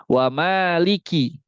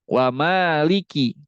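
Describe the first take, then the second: Both takes have the same delivery.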